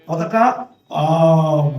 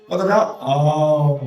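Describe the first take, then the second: Both takes have the same delivery.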